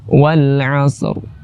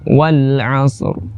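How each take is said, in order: No difference in how they are said.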